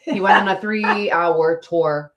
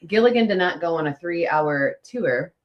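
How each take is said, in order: First: Tour said slowly as TOOR, rhyming with poor; slow, deliberate three-hour tour with TOOR; correct pronunciation. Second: Tour said like tier, three-hour tier; the wrong tour, sounding like tier; mock wrong pronunciation. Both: Shown as a demonstration. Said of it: "It's tournament, right?".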